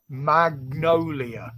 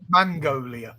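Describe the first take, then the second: First: The sounds come in their usual order. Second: The n and g sounds are swapped. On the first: The speaker calls it right. "now pronounce it right" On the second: The speaker calls it wrong. "I always say"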